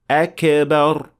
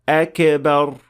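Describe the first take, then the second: No difference in how they are said.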